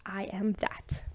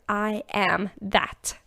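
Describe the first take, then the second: First: Soft, voiceless whisper; hushed repeat, all breath and no voice. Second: Said in the usual way. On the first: Real, not acted. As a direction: whisper it like a quiet affirmation.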